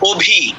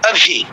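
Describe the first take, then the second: First: The first vowel is rounded. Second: The first vowel is unrounded. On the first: This is the Bengali way of saying it. The speaker calls it wrong. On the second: This is the Hindi way of saying it. The speaker calls it right.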